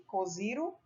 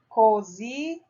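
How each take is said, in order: First: "Coziro" joined up as one soft, questioning word; "Coziro" with no gap, rising as a doubtful question; word tried out. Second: "coziró" split, with a long gap before the final "ró"; syllable sounded out. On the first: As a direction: read "Coziro" whole and quietly, testing whether it exists. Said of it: "depois leia as palavras formadas". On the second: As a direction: build "coziró" slowly from its parts, pausing before the last syllable. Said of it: "complete as palavras abaixo com as sílabas indicadas". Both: Shown as a demonstration.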